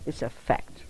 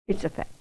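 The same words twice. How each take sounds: First: Barely voiced, dropping the line almost to a whisper; hushed aside. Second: Said in the usual way. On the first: Shown as a demonstration. Teacher murmuring the fact under her breath to students, hushed. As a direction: let it fall away, breathy and soft. Repeating the point for emphasis.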